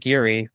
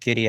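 First: The middle consonant is a soft R sound. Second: The middle consonant is a D sound. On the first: The speaker calls it wrong. "the soft R territory where it's just Giri" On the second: The speaker calls it right. "treat it like a D. You know, like the adjective Giddy"

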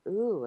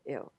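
First: It sounds curious and interested. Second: It sounds disgusted and repelled.

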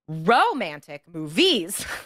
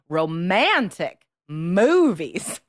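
First: The stress in romantic falls on a misplaced syllable. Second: The stress in romantic falls on the standard syllable. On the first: The speaker calls it wrong. "You're stressing the wrong syllable" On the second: The speaker calls it right. "stress the proper syllables"

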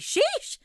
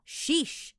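First: An even higher, more theatrical squealed sheesh. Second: A high squealed sheesh with stressed sh sounds. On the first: "那如果我再提高一点，你想要更dramatic 一点" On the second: "you gotta squeal the word sheesh in a high-pitched voice"

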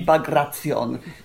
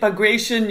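First: The name is pronounced the Russian way. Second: The name is pronounced the English way. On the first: "But the Russian would be Bagration" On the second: "You can say Bagration"

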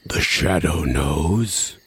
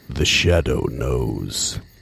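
First: It is said in a higher, less deep voice. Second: It is said in a low, deep voice.

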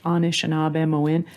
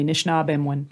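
First: It is said slowly with all vowels full. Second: It is said quickly with vowels dropped.

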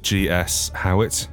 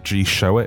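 First: The S is spoken as a separate letter. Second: The S is joined onto the surname. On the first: The speaker calls it right. "I am G.S. Howitt" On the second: The speaker calls it wrong. "if you want to pronounce it incorrectly"

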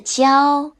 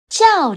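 First: The pitch stays high and level. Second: The pitch falls sharply and forcefully. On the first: "我们是有一声的交" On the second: "轿车的轿和大叫的叫都是四声，四声是要用力的声调哦"

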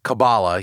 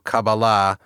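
First: It is the American pop-culture pronunciation. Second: It is not the American pop-culture pronunciation.

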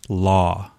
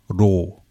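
First: It starts with an English L and an open vowel. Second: It starts with a flapped R-like sound and O vowel. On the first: "in American English, we say law" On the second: "taken from English and put into Japanese and katakana, is more of a ro"

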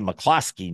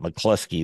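First: The second syllable has an 'oh' vowel. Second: The second syllable has an 'oo' vowel. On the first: The speaker calls it right. "I should say McCloskey" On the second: The speaker calls it wrong. "not McCloskey. There's no U in there"

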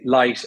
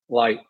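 First: The L is light and forward in the mouth. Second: The L is dark and made at the back. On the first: "an Irish accent's quite light on L's. So we say light" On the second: "whereas Americans will say flirt, million, light. So it's a darker L"

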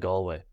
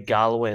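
First: The word is said with two syllables. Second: The word is said with three syllables. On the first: The speaker calls it right. "instead of Galway" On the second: The speaker calls it wrong. "they say Galway"

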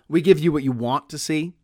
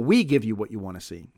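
First: The stress falls on the word want. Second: The stress falls on the word we. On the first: This is the plain, natural reading. "The emphasis is almost certainly want in that sentence" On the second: It contrasts who gives with someone else. "meaning that you could hit the we"

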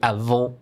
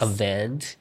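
First: It is said with a French accent. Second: It is said with an English accent. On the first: The speaker calls it right. "but French is actually avant" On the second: The speaker calls it wrong. "Most English speakers would just say like avant"

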